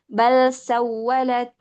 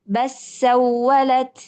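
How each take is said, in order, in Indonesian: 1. Huruf l dibaca jelas sebelum s. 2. Huruf l menyatu menjadi bunyi s yang ganda. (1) "Jadi lamnya dibaca dengan izhar" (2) "ada yang membaca dengan mengidghamkan huruf lam"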